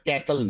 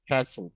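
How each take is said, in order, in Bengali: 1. প্রথম ধ্বনিটি সাধারণ k। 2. প্রথম ধ্বনিটি মহাপ্রাণ k, kh-এর কাছাকাছি। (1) "একেবারে ক্যাসল না" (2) "ক আর ক্ষয়ের মাঝামাঝি"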